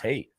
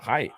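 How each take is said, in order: First: The vowel sounds like the one in bait. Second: The vowel sounds like the one in bite. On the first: The speaker calls it right. "It's hate" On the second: The speaker calls it wrong. "People pronounce it height. It's not height"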